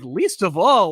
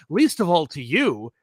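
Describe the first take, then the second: First: Louder, incredulous repeat; taken-aback echo. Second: Slow, pointed brush-off; mildly haughty refusal to explain; dismissive retort. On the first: Acted. Viewer reacting to Professor X's snub, louder and incredulous. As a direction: throw it back in mock disbelief. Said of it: "And I'm like". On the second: Retold or imitated. Professor X brushing off Wolverine's criticism, slow and dismissive. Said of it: "And he's like, "I don't have to explain myself".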